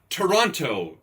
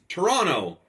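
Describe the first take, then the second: First: The word is said without a Canadian accent. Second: The word is said with a Canadian accent. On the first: The speaker calls it wrong. "not Toronto" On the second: The speaker calls it right. "The Canadian accent, it's Toronto"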